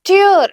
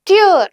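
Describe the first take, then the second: Both takes have the same delivery.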